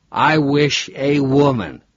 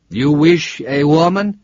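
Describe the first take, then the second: First: Put-on slow, drunken echo of "I wish a woman.", leaning on "I"; a drunk parroting the cabbie's odd phrasing, slowly; "I wish a woman." dragged out, a falling mock-imitation. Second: Put-on slow, lightly Italian-accented question, "wish" lifted; a hint of an Italian driver asking "You wish a woman?" slowly; "You wish a woman?" with a light Italian lilt, rising at the end; Italian cabbie. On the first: Robert mockingly echoes the driver. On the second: Italian driver repeats request.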